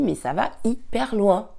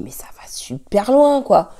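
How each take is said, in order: First: Said in the usual way. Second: Hushed unvoiced whisper. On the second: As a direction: whisper it in disbelief. Retold own inner reaction, whispered.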